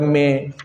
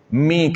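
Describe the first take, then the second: First: The vowel is an open 'eh' sound. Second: The vowel is a clear 'ee' sound. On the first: The speaker calls it wrong. "bukan me" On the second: The speaker calls it right. "mi kita bukan me"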